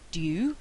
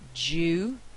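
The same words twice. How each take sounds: First: It begins with d followed by y. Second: It begins with a single j sound. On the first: "instead of" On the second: "it's produced as j"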